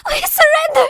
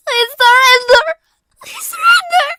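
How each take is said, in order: First: High, loud weeping cry; weeping plea. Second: High, loud cracking cry, slurred. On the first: Defeated girl weeps her surrender to the enforcers. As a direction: beg through tears. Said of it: "Nenny wept". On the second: Girl cries her surrender again, in English, voice cracking. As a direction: plead in tears, voice breaking. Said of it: "she cried, voice cracking". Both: Acted.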